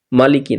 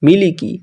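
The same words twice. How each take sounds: First: "মালিকি" as maa-li-ki; "মালিকি" with the mistaken aa start; wrong first vowel. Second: "মিলিকি" as mi-li-ki, pitched higher; "মিলিকি" higher, first vowel i not aa; short i throughout. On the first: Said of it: "মালিকি না". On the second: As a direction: say "মিলিকি" with i in every syllable. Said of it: "মালিকি না, মিলিকি". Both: Shown as a demonstration.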